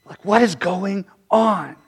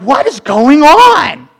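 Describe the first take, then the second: First: Quiet musing. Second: High, loud, slow bewildered question; baffled cry. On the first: Real, not acted. Preacher to his congregation, soft and slow. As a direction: let it sink in, nearly to yourself. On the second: Retold or imitated. Confused believers asking aloud, high and drawn out. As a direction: stretch it out, totally lost. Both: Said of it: "We're like".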